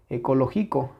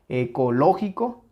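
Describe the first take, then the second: First: The stress falls on a syllable other than 'lo'. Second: The stress falls on the syllable 'lo'. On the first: The speaker calls it wrong. "cuando está presente la sílaba tónica y cuando no" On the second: The speaker calls it right. "Ecológico. Claramente está aquí"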